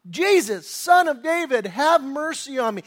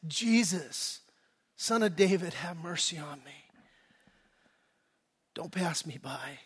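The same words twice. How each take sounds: First: Higher, louder acted cry for mercy; desperate scream. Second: Soft, falling plea, dropping lower at the end; hushed inward prayer for mercy; quiet heart cry. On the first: Bartimaeus begging Jesus for mercy, mock desperate scream. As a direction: cry out urgently, as one who will not be stopped. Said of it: "He's screaming it like a wild animal". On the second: Acted. A cry of the heart to Jesus, quiet plea. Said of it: "Maybe not vocally. Maybe it's just the, the emotion".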